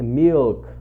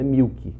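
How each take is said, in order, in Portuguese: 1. O L é pronunciado como um L de verdade. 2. O L soa como uma vogal, não como um L. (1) "é esse som de L mesmo" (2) "Não fala isso porque é ridículo"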